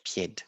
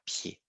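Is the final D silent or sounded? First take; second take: sounded; silent. First: The final D is pronounced. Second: The final D is not pronounced. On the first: The speaker calls it wrong. "not pied" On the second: The speaker calls it right. "On ne prononce pas le D"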